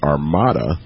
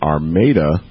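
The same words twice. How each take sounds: First: It is said like the word for ships. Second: It is said the way locals say the town. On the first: It names a fleet of ships. "like the fleet of ships" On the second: It names the town in Michigan. "We live in Armada, Michigan"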